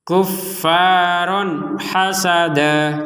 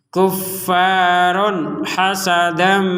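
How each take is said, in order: First: The last word ends in a lengthened vowel. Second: The last word ends in a nasal m sound. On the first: The reader stops after this word. "kalau berhenti" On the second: The reader continues into the next word. "Kalau dilanjutkan"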